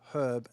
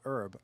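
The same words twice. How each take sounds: First: The H at the start is sounded. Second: The H at the start is silent. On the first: This is how the man's name is said. The speaker calls it right. "if a guy's name is H E R B, it's herb" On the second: This is how the plant word is said. The speaker calls it wrong. "and not herb"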